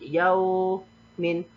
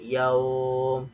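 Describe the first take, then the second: First: The word ends with an in sound. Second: The word ends on a bare m sound. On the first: The word is read without stopping. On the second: The reader stops on this word.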